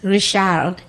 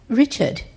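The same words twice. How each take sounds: First: The name is said in a French accent. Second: The name is said in a British accent. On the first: "Goes to France" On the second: "he goes to Britain and they're like"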